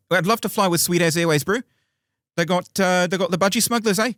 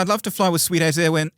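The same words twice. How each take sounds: First: Put-on broad Kiwi accent, pitched higher and louder; cheeky Kiwi accent, bro. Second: Put-on first go at a Kiwi accent, pitched higher; tentative Kiwi accent. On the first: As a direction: ham up a New Zealand bloke. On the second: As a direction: ease into a New Zealand accent. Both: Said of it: "Can you do a Kiwi accent?".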